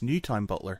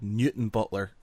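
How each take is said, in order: First: The second syllable is said in full as 'town'. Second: The second syllable is reduced to a short 'ton'. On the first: The name is read as it is spelt. The speaker calls it wrong. "it's spelt Newtown Butler" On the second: The name is said as locals say it. The speaker calls it right. "it's called Newton Butler, ... we don't pronounce the whole thing"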